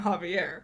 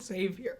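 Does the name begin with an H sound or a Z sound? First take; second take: H sound; Z sound. First: The name begins with a breathy H sound. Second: The name begins with a buzzing Z sound. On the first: The speaker calls it right. "If they pronounced it right, it would have been Javier" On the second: The speaker calls it wrong. "But they called it Xavier"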